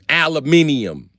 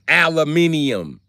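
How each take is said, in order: The two takes are said the same way.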